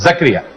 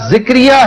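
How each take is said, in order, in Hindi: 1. पहले अक्षर में 'a' स्वर है। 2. पहले अक्षर में 'i' स्वर है। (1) "जे के ऊपर जबर है, चुनांचे इसको जक्रिया पढ़े" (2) "हमेशा जिक्रिया ही सुनेंगे"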